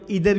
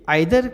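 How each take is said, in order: First: The word begins with an 'ee' sound. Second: The word begins with an 'eye' sound. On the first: Some people say it this way too. "कई लोग इधर भी बोलते हैं" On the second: This is the more common form. "आइदर का प्रचलन ज़्यादा है और मैं भी आइदर को ही प्रेफर करता हूँ"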